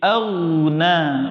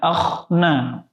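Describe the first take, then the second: First: The throat consonant sounds clear and smooth. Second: The throat consonant sounds rough, like kha. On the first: The speaker calls it right. "Jadi auna" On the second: The speaker calls it wrong. "kotor, mirip huruf kha"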